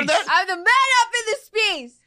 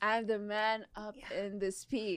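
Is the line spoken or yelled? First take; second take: yelled; spoken. First: The line is yelled loudly. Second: The line is spoken at normal loudness.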